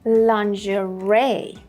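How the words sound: It is said with an American pronunciation. "the more common American pronunciation is"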